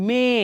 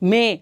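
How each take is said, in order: No difference in how they are said.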